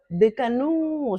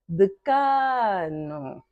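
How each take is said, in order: First: The stress is not on the middle syllable. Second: The stress is on the middle syllable. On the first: The speaker calls it wrong. "Nem decanu. Já não seria a mesma palavra" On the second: The speaker calls it right. "K é a sílaba tônica"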